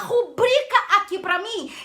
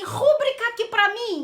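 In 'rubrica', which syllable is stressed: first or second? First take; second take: second; first. First: The stress is on the second syllable. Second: The stress is on the first syllable. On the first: The speaker calls it right. "Fala rubrica aqui pra mim" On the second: The speaker calls it wrong. "Não fala, né?"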